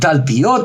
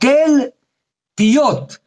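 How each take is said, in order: First: It is run together as one word. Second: It is said as two separate words. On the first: It is the ordinary word in the verse. The speaker calls it wrong. "אנחנו לא אומרים תל פיות" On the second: A mound that all mouths turn toward. The speaker calls it right. "אלא תל פיות. תל שכל פיות פונים אליה"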